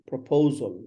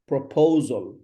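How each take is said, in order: Both takes have the same delivery.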